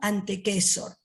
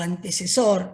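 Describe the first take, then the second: First: The middle C is said as a K sound. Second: The middle C is said as an S sound. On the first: It follows the Latin pronunciation. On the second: It follows the Spanish pronunciation.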